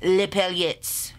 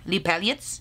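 First: Les paillettes stretched to half speed with a falling end; slow careful repeat. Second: Les paillettes said quicker, rising into a question; questioning repeat. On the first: Vlogger practises after the recorded voice, slow and deliberate. Copies slowed-down pronunciation clip. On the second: Vlogger checks her French against the clip, questioning. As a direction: check whether Les paillettes is right, lifting the end. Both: Shown as a demonstration.

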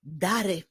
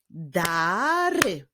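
First: Said in the usual way. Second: "Dary" as very long da, then ry; "Dary" drawn out by syllables; split into syllables. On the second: Shown as a demonstration. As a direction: stretch "Dary" into two clapping beats. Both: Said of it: "Podzielmy na sylaby i wyklaszczmy".

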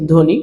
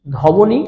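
First: ধ্বনি with silent ব, as dhoni; correct pronunciation. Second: ধবনী with an audible ব, dho-bo-ni; wrong pronunciation. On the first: Teacher showing students the word, correct pronunciation. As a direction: say ধ্বনি with no ব sound. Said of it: "কি বলেছি". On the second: Teacher asking if we ever say this, wrong pronunciation. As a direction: sound out the ব in ধবনী, questioning. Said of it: "আমরা কি কোনো সময় বলছি". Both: Shown as a demonstration.

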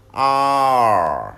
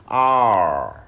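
First: "Are" with rounded lips and curled tongue, held. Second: "are" stretched very slowly, rounded, tongue curled. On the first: Teacher modelling rounded "Are" to learners. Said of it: "Nhớ tròn miệng". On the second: Teacher slowly showing how to say "are". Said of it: "Uốn lưỡi lên". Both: Shown as a demonstration.

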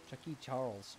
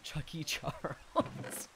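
First: Said in the usual way. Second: Slow, breathy laugh through it; giggling the nickname. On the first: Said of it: "repeats the nickname". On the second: Real, not acted. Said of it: "repeats the nickname laughing".

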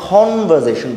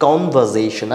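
First: "কনভারসেশন" as "khonversation", puff on the first sound; wrongly aspirated K. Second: Said in the usual way. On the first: Shown as a demonstration. Teacher shows what not to say, "কনভারসেশন" begun with breathy kh. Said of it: "এখানে কনভারসেশন বলছি না". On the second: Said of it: "যেরকম আছে ওরকমই থাকবে".

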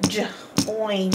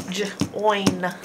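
First: Said in the usual way. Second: Breathy unvoiced Join; whispered word. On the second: Shown as a demonstration. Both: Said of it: "Our next word is join".

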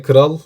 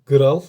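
First: Said in the usual way. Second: Gral, slow, the G as in our dialect; local G for K. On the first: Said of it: "biz K pek kullanmayız". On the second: Shown as a demonstration. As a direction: Gral said slowly with G. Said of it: "biz K pek kullanmayız. G kullanırız".

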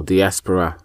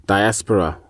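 First: "diaspora" with an "ee" in the first syllable; DEE-aspora pronunciation. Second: "diaspora" with a long "eye" in the first syllable; DY-aspora pronunciation. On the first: Teacher offering listeners the alternative way, "diaspora" as dee-ASS-puh-ruh. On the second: Teacher offering listeners one way of saying it, "diaspora" as dye-ASS-puh-ruh. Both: Shown as a demonstration. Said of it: "however you want to pronounce it".

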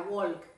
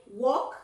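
First: "walk" as "wolk", with the l heard; L wrongly sounded. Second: "walk" as "wok", no l; silent L. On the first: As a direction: show the mistake, an l in "walk". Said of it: "no se pronuncia walk". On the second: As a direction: model "walk" with the l left out, rising. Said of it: "Esa L no". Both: Shown as a demonstration.

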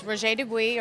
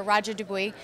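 First: "Roger Dubuis" said the French way, ro-ZHEH dü-BWEE; French pronunciation. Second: "Roger Dubuis" anglicized as RAH-jer DOO-bee; English pronunciation. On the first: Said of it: "like you said, it's Roger Dubuis". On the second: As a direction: say "Roger Dubuis" the American way, hard r and no French vowels. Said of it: "or Roger Dubuis". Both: Shown as a demonstration.

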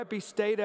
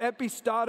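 First: "epistata" with an AY in the third syllable; alternate pronunciation. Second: "epistata" with an AH in the third syllable; alternate pronunciation. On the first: Preacher offering the second version, "epistata" with STAY. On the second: Preacher offering the first version, "epistata" with STAH. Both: Shown as a demonstration. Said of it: "both pronunciations".

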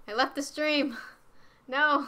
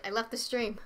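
First: Higher, louder dismayed cry; alarmed shout. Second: Said in the usual way. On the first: Real, not acted. Streamer realising they left the stream, alarmed. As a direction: wail it in sudden panic.

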